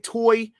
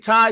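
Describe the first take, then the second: First: The name rhymes with 'toy'. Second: The name rhymes with 'tie'. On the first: "some people say toy. I say toy because it sounds nice" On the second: "some people say tie"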